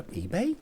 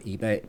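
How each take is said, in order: First: EBAY raised at the end as a puzzled question. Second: Said in the usual way. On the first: Real, not acted. Host catching own slip, EBAY said higher as a question.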